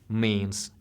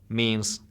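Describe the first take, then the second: The two takes are said the same way.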